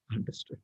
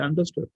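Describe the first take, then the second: First: "Understood" said very softly, without the questioning lift; subdued reply. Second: "Understood" rising at the end as a question; questioning tune. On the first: King answering his minister, "Understood" as a hushed reply. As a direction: drop "Understood" to a low-volume admission. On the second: Minister checking with the king, "Understood" as a rising question. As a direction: ask "Understood" with a lift at the end. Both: Acted.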